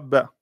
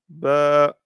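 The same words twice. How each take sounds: First: The vowel is cut short after one beat. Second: The vowel is held for two beats. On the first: The speaker calls it wrong. "et non pas ba" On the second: The speaker calls it right. "comme il y a la prolongation, on lira ba"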